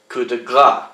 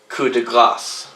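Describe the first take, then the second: First: The final s sound is left silent. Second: The final s sound is pronounced. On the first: A blow of fat. The speaker calls it wrong. "as if it was spelled G R A S, where the S would be silent" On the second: A blow of mercy. The speaker calls it right. "to pronounce this correctly"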